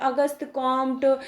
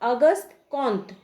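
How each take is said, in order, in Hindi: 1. सरनेम में एक स्पष्ट m ध्वनि है: Komt। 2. सरनेम में m के बिना एक नासिक स्वर है: Kont। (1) "बहुत तरह के नाम का हम लोग उच्चारण करते हैं अपने सुविधा के अनुसार" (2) "सही प्रोनाउंसिएशन की बात की जाए तो उनका नाम है अगस्त कॉन्त"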